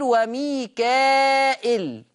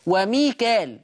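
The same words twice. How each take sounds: First: وميكائيل with long held aa, then hamza; extended madd and kasra hamza in وميكائيل; Warsh reading. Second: وميكال with plain long alif, no hamza; long aa straight into lam in وميكال; Hafs reading. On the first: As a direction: stretch وميكائيل before the glottal -il. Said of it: "يقرأ بالهمز". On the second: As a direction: say وميكال ending in -kaal. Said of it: "حفص يقرأ بالألف". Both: Shown as a demonstration.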